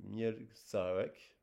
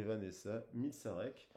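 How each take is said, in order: First: Mielczarek said very slowly, each syllable apart; careful spelling-out. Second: Said in the usual way. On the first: Shown as a demonstration. Card reader slowly sounding out the author's name Mielczarek.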